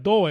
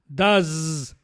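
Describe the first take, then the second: First: The word ends with an s sound. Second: The word ends with a z sound. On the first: The speaker calls it wrong. "no vayan a pronunciar" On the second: The speaker calls it right. "no lo pronuncien con s, sino que con z"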